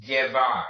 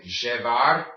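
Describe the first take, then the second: First: Llevar with double L said like Y; Y-sound llevar. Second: Llevar with double L as a zh sound. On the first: Teacher models the verb, llevar with Y sound. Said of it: "Your double L makes the Y sound". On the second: Teacher shows the dialect variant, zh-sound llevar. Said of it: "makes the je sound". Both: Shown as a demonstration.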